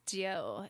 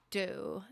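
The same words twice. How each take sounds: First: "do" said as "dew", with a y-glide; added EW sound. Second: Said in the usual way. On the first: Shown as a demonstration. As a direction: slip a "yew" sound into "do". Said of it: "I add an E W to it". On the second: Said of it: "It's not do".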